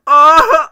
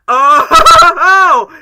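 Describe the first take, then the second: First: Failed Sonic yelp, much higher and louder; a first try at the Sonic voice that misses; botched movie Sonic. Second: Much higher, much louder Sonic yelp; movie Sonic. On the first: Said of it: "I messed it up". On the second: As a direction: nail the cocky hedgehog's yelp. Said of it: "make my best movie Sonic impression". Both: Shown as a demonstration.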